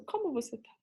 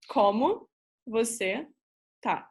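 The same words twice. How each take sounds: First: "Como você tá?" run together as one question; softer, connected "Como você tá?" asked naturally; question intonation. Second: "Como", "você", "tá" separated by pauses; word-by-word demonstration. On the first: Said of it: "ask it as a question". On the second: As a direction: teach "Como você tá" one word at a time, each lifted. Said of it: "you can say". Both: Shown as a demonstration.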